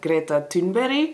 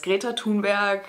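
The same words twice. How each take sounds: First: The name is said with a Swedish accent. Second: The name is said with a German accent. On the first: "but how you actually pronounce this is" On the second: "The Germans know her as"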